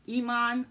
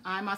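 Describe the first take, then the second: First: Iman said ee-MAHN, first syllable like "ee"; ee-MAHN pronunciation. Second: Iman said EYE-mahn, first syllable like "eye"; EYE-mahn pronunciation. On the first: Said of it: "Some people say Iman". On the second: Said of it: "some people say Iman". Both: Shown as a demonstration.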